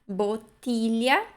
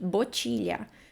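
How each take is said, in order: First: The middle consonant is a palatal 'ly' sound. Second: The middle consonant is a 'ch' sound. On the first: The speaker calls it right. "Mas é botilha" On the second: The speaker calls it wrong. "Botilha seria se fosse com C I"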